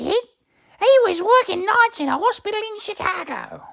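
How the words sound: It is read in a put-on character voice. "Just kidding. I won't do that for the rest of the chapter"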